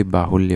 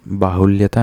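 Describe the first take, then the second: First: बाहुल्य ending at "lya"; correct form. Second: बाहुल्यता with an added final "taa"; wrong form. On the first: Teacher correcting students, बाहुल्य without the suffix. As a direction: stop बाहुल्य with no "taa" after it. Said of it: "simply बाहुल्य होता है". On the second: Teacher rejecting a non-word, बाहुल्यता with extra "taa". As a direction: tack "taa" onto बाहुल्यता. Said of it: "नहीं होता". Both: Shown as a demonstration.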